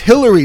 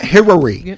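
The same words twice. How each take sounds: First: It is spoken in the speaker's plain accent. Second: It is spoken in a put-on foreign accent. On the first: The speaker calls it right. "it's Hillary" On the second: The speaker calls it wrong. "not Hillary"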